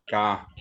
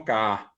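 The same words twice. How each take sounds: First: "ka" broken as ka, catch, a; two cut-apart beats in "ka"; glottal stop. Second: Said in the usual way. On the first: Shown as a demonstration. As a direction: split the vowel of "ka" with a throat stop. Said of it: "allí hay un puso". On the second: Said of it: "no decimos ka".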